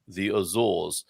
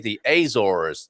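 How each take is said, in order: First: It is said with an English accent. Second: It is said with an American accent.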